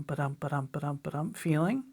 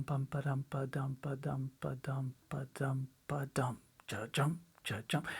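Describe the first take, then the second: First: Said in the usual way. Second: Soft, lower, unvoiced whispered rhythm syllables; slowed whisper. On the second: Shown as a demonstration. Drum teacher slowing the shuffle feel for students, whispered. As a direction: breathe the ba-dums slowly and softly. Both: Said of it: "If you slow that way down".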